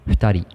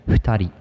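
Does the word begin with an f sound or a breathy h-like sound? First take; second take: h-like sound; h-like sound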